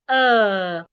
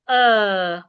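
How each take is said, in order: First: The vowel is said in a British accent. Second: The same.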